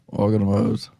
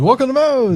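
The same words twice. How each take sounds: First: It is said flatly with little energy. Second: It is said loudly with lots of energy.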